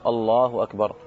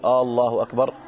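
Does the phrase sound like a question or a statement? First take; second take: statement; question. First: Plain opening vowel, said as a statement. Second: Opening vowel turned into a questioning hamza. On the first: God is the greatest. The speaker calls it right. "هذا هو الصحيح" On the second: It asks whether God is the greatest. The speaker calls it wrong. "أن يجعل الهمزة في أول هذه الكلمة الله أكبر همزة الاستفهام"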